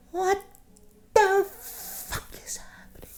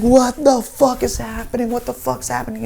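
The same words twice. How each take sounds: First: High, thin whisper, drawn out slowly; hushed alarm. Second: High-pitched alarm, loud then easing; panicked bewilderment. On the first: Teller in bed as roommate yells, hushed alarm. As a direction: whisper in alarm from under the covers. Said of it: "Under the covers". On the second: Teller hearing the wail every six hours, panicked. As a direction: cry it out high, utterly baffled. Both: Retold or imitated.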